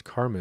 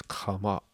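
First: Said in the usual way. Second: "kama" with no r sound; "kama" as in the Sanskrit pronunciation; karma pronounced kama. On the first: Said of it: "the actual way to pronounce". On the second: Shown as a demonstration. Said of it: "the actual way to pronounce karma".

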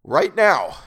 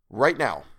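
First: "Right now" shouted, loud and high; desperate insistence. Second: A little raised on RIGHT NOW; firm insistence. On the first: Man willing himself to wake, desperate shout. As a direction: belt out RIGHT NOW to force it. Repeats the order to himself, escalating. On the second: Man willing himself to wake, firm insistence. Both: A narrator's reading.

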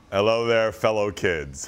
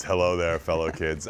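First: Deep mock old man. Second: Much lower, hammed-up greeting; very deep mock voice. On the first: Host mocks being old. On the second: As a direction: drop the voice way down, mocking. Repeats lower.

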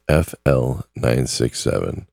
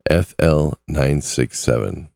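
Both takes have the same delivery.

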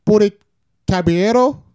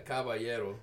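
First: Caballero said with a hard L sound, kab-ee-EH-toh; guessing at Caballero, sounding it out with L's; mispronounced name. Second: Caballero with the double L as a Y, kah-bah-YEH-roh; Spanish pronunciation. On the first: Roommate tries the host's name, unsure of it. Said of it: "how do you say that name?". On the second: Host correcting his guest on his name, Spanish way. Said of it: "Two L's make it a Y". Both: Shown as a demonstration.

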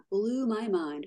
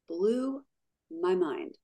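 First: Said in the usual way. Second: "Blew" held and rising, pause, then "my mind" falling; emphatic repeat. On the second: Real, not acted. Amazed at what she found out, emphatic broken-up "Blew ... my mind". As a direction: stretch "Blew", stop, then drop "my mind".

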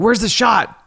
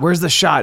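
First: Much higher, hammed-up movie-scene yell; Pulp Fiction style. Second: Frantic retold yell. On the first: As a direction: play it like a frantic movie scene. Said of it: "like that scene out of Pulp Fiction". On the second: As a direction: retell shouting for the shot in panic. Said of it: "I said".

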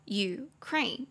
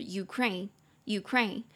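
First: Ukraine slowly split in two, U, kraine; syllable by syllable. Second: Said in the usual way. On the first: Shown as a demonstration. Teacher showing the two syllables of Ukraine, slowly separated. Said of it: "两个音节哦". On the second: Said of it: "这个字就是Ukraine".

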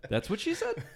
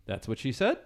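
First: "That's what she said." said high and falling at the end as a statement; correct catchphrase. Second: "That's what she said?" rising at the end like a question; upward inflection. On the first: Shown as a demonstration. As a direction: finish "That's what she said." firmly downward. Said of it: "it sounded like he was asking a question". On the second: Retold or imitated. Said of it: "he kept using an upward inflection".

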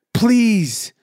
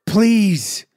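The two takes are said the same way.

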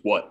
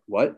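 First: Short falling "What?", lightly voiced tough dad; a hint of a no-nonsense father's curt question. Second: Lightly imitated mellow dad, rising "What?"; mellow, confused. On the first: Tough dad answering his son's call, lightly imitated curt falling tone. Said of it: "he's a tough guy". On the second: Dad hearing of son's scholarship, mildly imitated confused rising tone. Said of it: "mellow, like, confused kinda, kinda voice".

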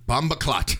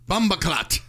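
First: Fairly loud, Jamaican slang exclamation; loud patois call. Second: Higher and louder Jamaican exclamation; loud patois shout. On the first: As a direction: call out Bomba clot with some force. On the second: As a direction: belt out Bomba clot, pitched up. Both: Shown as a demonstration. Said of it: "Say this as loud as you can".

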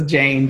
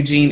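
First: Jane said clearly in an American accent as "jayn"; correct name. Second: Jean said as the mistaken name "jeen"; Jean pronounced "jeen", the way it was misheard. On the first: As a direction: say Jane with a long ay sound, American style. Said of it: "it's my American accent. So it's Jane". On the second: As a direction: say Jean with a long ee sound, like the French-style Jean. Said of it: "it might have sounded like Jean". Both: Shown as a demonstration.

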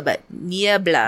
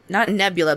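First: Niebla said slowly in Spanish, NYEH-blah; Spanish name. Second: Nebula said the English way, like the star cloud; NEB-yoo-luh, plain English vowels; wrong name. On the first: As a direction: draw out Niebla carefully, Spanish style. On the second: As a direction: Nebula as a mistaken English word. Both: Shown as a demonstration.

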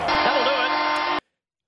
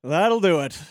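First: Slowly drawn-out host sign-off; slow drawn-out call. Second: Said in the usual way. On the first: Real, not acted. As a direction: stretch every word long. Host drawn-out shout over music.

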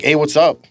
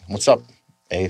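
First: "Hey, what's up?" with a rising flat American lilt; "Hey, what's up?" said plainly, no tag at the end. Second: "What's up, eh?" with a rising Canadian "eh" tag. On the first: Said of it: "You'll be like". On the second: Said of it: "But we're like". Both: Retold or imitated.

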